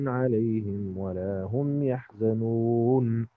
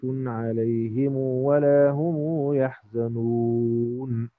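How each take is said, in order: First: The m of alayhim is closed, with no vowel. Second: The m of alayhim is followed by a long u. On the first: "هنقرأ الآن بالقصر على السكون" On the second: "نعطف بالصلة"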